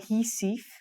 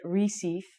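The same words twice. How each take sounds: First: The name begins with an H-like sound. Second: The name begins with an R sound. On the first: This is how local speakers say it. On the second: This is how it looks from the spelling.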